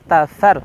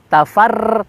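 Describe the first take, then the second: First: The r is trilled with only a brief vibration. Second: The r is trilled with many repeated vibrations. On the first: The speaker calls it right. "tapi tafar" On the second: The speaker calls it wrong. "Tafar tidak"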